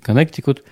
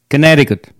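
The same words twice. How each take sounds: First: The name is said with Russian pronunciation. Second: The name is said with American English pronunciation. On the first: "который мы называем по-русски Коннектикут" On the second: "на самом деле здесь в Америке звучит совсем не так"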